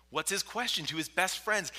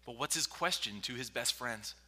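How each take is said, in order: First: Higher, louder preacher's repeat; raised insistent question. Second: Said in the usual way. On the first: Real, not acted. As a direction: drive the question home with force.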